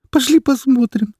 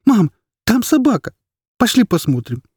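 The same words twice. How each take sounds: First: Very high, tearful begging; boy pleading once more to go see the dog; higher desperate plea. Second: Put-on boy begging his mother to see the dog; pleading child. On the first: Acted. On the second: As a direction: beg like a small boy.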